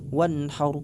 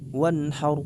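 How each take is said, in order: No difference in how they are said.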